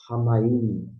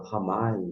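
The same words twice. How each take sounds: First: Ramaim slowed down and stretched, stress on MAIM; drawn-out Ramaim with a breathy H start; careful citation of Ramaim; pronouncing Ramaim. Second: Ramai said short, ending on open AI; clipped Ramai, no final M; the other reading, Ramai; pronouncing Ramai. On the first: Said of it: "e fala Ramaim". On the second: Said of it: "outros falam Ramai". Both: Retold or imitated.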